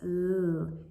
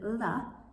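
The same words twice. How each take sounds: First: The sound is said alone without 'uh'. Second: An 'uh' vowel is added after the sound. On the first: The speaker calls it right. "it's l" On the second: The speaker calls it wrong. "Instead of l"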